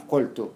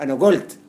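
First: "قلت" said "qoltu", with a q; written qaf. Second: "قلت" said "golt", with hard g; loud "أنا قلت" pronounced "ana golt"; g for qaf. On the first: Teacher reading the written form, "قلت" as "qoltu". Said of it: "تكتبها قاف". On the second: Teacher giving a dialect example, "قلت" as "golt". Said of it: "زي ما تقول أنا". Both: Shown as a demonstration.

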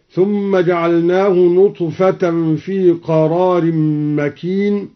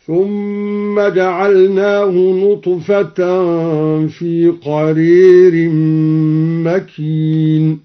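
First: Said in the usual way. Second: Slow chant, قرير pronounced "qarērin"; recitation with imala. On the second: Shown as a demonstration. Teacher demonstrating al-Duri's imala, slow chant with "qarēr" for قرير. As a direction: chant slowly, tilting the long a to "ē" in قرير. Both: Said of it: "أمال الدوري قرار".

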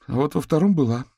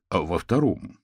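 First: Put-on high, anxious young woman; Katerina's voice. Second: Viktor's voice. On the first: Katerina tells the detectives there was a card, anxious. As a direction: blurt it out anxiously. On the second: The detective Viktor checks her words, calm and level. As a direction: ask it flatly, checking a detail. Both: A narrator's reading. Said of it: "уточнил Виктор".

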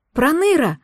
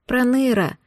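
First: Delighted, bright exclamation; joyful cry. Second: Pitiful. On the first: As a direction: call out his name with glad surprise. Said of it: "обрадованно вскрикнула я". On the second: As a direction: say his name with pity. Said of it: "жалостливо произнесла я". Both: A narrator's reading.

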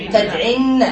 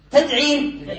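First: "تدعين" with a held, doubled n and final a. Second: Said in the usual way. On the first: Shown as a demonstration. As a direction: press on the n ending of "تدعين". (نطق "تدعين" بنون مشددة مفتوحة) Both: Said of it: "سيحصل له ما حصل للصحيح".

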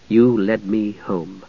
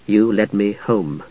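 First: Even slower, softer remembered words; fading echo. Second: Slow, softer and lower, like a fading echo; remembered words echoing in his mind; echoing memory. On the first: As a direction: let the echo die away. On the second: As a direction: let the words drift back as a memory. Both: A narrator's reading. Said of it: "the words echoed".

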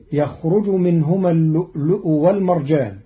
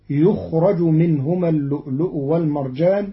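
First: Said in the usual way. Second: يخرج said yukhraj, with damma on the ya and fatha on the ra; Qalun reading. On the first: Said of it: "قرأ قالون كلمة يخرج". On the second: Shown as a demonstration. Teacher shows Qalun's يخرج as yukhraj. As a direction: recite يخرج as yukhraj, passive. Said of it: "بضم الياء وفتح الراء".

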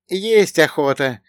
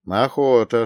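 First: High, slow, plaintive companion; sighed. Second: Said in the usual way. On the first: A narrator's reading. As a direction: draw out the hunger with a sigh. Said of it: "произнёс со вздохом Богдан". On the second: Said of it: "согласился я".

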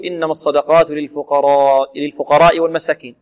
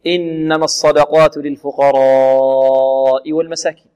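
First: للفقراء read with a short final aa, no madd; without lengthening. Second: Slow chant, للفقراء with a very long held aa; lengthened madd. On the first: Man reciting to Ibn Masud, vowel left unlengthened. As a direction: pass straight through للفقراء without stretching it. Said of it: "قرأها مرسلة أي بدون مد". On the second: Ibn Masud reciting as the Prophet taught him, vowel drawn out. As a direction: stretch the aa of للفقراء on one note. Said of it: "فمدها". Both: Retold or imitated.

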